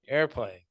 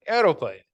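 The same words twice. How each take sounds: First: Said in the usual way. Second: Put-on louder "aeroplane" with a Polish accent. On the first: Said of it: "the teacher would go back". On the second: Brother answering his correcting teacher, Polish accent. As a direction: imitate a kid insisting on Polish-accented "aeroplane". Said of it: "He'd be like".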